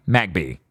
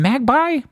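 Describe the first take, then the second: First: Said in the usual way. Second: Questioning "Magby", pronounced MAG-bye. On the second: Shown as a demonstration. Reader unsure of a Pokemon name tries Magby as "mag-bye". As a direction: say Magby with its end rhyming with "eye". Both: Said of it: "Is it Magby?".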